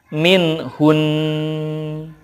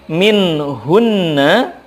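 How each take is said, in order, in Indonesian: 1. Akhirannya bunyi sengau yang ditahan, lalu hening. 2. Kata ini berakhir dengan vokal.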